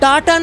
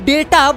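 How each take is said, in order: First: The first vowel sounds like 'ah'. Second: The first vowel sounds like 'ay'. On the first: The speaker calls it wrong. "डाटा नहीं" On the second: The speaker calls it right. "बल्कि डेटा बोलना चाहिए"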